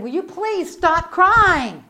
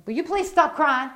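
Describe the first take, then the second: First: Slow, high, loud retold demand; exasperated demand. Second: Contained plea at ordinary volume; restrained exasperation. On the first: Preacher shaking the crying girl, exasperated demand. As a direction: drag out the plea in loud exasperation. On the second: Retold or imitated. Preacher thinking at the crying girl, restrained exasperation. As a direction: ask it with held-in irritation. Thought request before the louder one.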